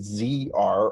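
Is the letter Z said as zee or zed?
zee. The letter Z is said as zee.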